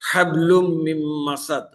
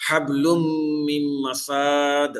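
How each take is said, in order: First: মাসাদ with short a on sin; হাবলুম মিম মাসাদ, sin kept short; correct short vowel. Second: মাসাদ with sin stretched long, very slow; হাবলুম মিম মাসাদ dragged out at the end; wrong drawn-out vowel. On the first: Teacher recites the correct short vowel for students. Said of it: "সিনের উপরে হরকত আছে জবর". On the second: Teacher shows students the wrongly lengthened vowel, slow stretched recitation. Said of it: "এখানে যদি আমি মাদ করে পড়ি". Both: Shown as a demonstration.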